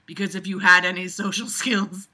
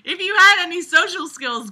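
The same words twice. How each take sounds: First: Reading the line while laughing. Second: Mocking echo, pitched higher and louder. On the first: Acted. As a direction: read it, breaking into laughter. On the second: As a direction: throw the line back at the writer, mocking. Mockingly throws the line back.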